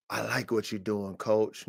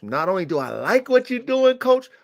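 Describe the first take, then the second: First: Soft, lower, measured compliment; low-key buyer praise. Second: Higher, rising mock praise; building buyer enthusiasm. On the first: Acted. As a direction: quote the buyer quietly, holding back. Buyer praising coach, first take. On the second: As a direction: play the buyer getting carried away.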